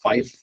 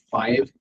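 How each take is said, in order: First: The word ends with an f sound. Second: The word ends with a v sound. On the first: "fife is the actual pronunciation for it" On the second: "I just use five"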